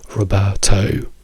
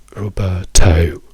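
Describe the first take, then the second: The two takes are said the same way.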